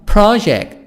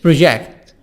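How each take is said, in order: First: The stress is on the first syllable. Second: The stress is on the second syllable. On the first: It is used as a noun. "الكلمة دي كانت noun" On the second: It is used as a verb. "ضغطت على آخر الكلمة"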